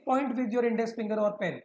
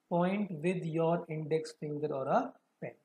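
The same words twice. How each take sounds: First: Said in the usual way. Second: Fast, then drawn out slow; dragged out slow reading pace; slowed right down. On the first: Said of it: "मैं slow भी कर रहा हूँ, उसको fast भी कर रहा हूँ". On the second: Shown as a demonstration. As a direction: read it slower, word by word, finger following. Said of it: "मैं स्लो भी कर रहा हूँ".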